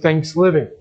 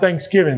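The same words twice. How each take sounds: First: The word is said with an L sound. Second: The word is said with a G sound. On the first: "They were saying Thanksgiving" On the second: "Not Thanksgiving"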